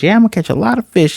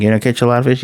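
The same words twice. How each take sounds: First: Quick, high-pitched eager echo; mock-eager, fast and pitched up; eager reply. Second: Said in the usual way. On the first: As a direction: imitate an excited kid agreeing. Acted eager echo of the question.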